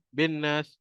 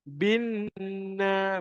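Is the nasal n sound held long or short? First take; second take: short; long. First: The doubled n is short without a held nasal. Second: The doubled n is nasalized and held two beats. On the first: The speaker calls it wrong. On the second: The speaker calls it right. "Pastikan kita dengungkan dekat situ"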